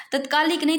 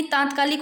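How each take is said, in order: First: तत्कालिक said with a short first a, as the wrong spelling; teacher voicing the wrong form तत्कालिक, short a in the first syllable. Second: तात्कालिक said with a long first aa, as the right spelling; teacher stretching the first vowel of तात्कालिक to a long aa; correct form. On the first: Teacher shows students the wrong spelling, saying तत्कालिक with a short a. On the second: Teacher corrects students, saying तात्कालिक with a long aa. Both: Shown as a demonstration. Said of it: "तात्कालिक होता है".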